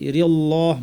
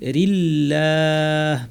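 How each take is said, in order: First: The L sound is heavy and full. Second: The L sound is light and thin. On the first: The speaker calls it wrong. "রিল্লাহ বলবো না" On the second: The speaker calls it right. "পাতলা করে"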